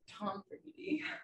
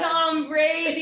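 First: It is said at normal, quieter volume. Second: It is said loudly.

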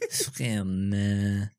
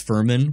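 First: The name is said with a put-on French accent. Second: The name is said with a plain American accent. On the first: The speaker calls it right. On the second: The speaker calls it wrong.

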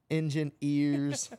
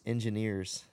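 First: The word is split, with emphasis on 'ears'. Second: The word is said plainly, without extra emphasis. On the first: The speaker calls it right. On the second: The speaker calls it wrong.

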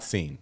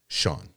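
First: The name is said as seen. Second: The name is said as shawn. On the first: The speaker calls it wrong. "Not seen" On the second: The speaker calls it right. "Very simple"

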